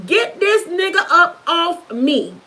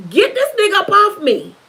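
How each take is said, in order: First: "Get this nigga up off me" slowly, word by word; "Get this nigga up off me" drawn out with pauses; emphatic retold plea. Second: Said in the usual way. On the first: Cry repeated for emphasis.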